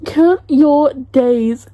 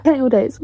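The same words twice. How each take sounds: First: Drawn-out, deliberate warning; slow, emphatic threat. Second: Said in the usual way. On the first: Real, not acted. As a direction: COUNT YOUR DAYS very slowly, word by word. Repeats threat to author, emphatically.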